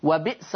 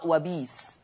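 First: Said in the usual way. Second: "وبيس" with long "ii", wabiis; no glottal stop in "وبيس"; lower, softer "وبيس", vowel lengthened; hamza turned to ya. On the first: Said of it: "قرأ ورش بالإبدال". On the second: Shown as a demonstration. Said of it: "يقرأ".

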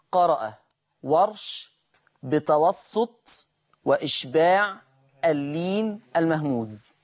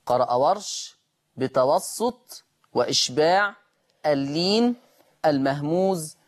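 The two takes are said the same way.

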